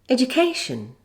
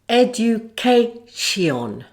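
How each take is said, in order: First: Unstressed vowels are reduced to schwa. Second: Every vowel is pronounced full, without schwa. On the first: The speaker calls it right. "with the correct pronunciation using stress and the schwa for weak forms" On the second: The speaker calls it wrong. "without the schwa sound ... doesn't sound right"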